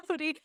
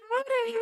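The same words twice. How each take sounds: First: Said in the usual way. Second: High drawn-out cowboy greeting; playful cowgirl hello; cowboy howdy. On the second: Shown as a demonstration. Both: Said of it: "[name]'s commitment to howdy".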